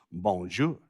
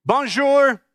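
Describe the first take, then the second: First: Low, soft French greeting; better French accent. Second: Bright-pitched, clumsy American-style French greeting; clumsy French accent. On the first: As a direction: attempt a careful French accent, much lower and quieter. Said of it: "say it with a better accent". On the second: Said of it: "a better accent than that". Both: Shown as a demonstration.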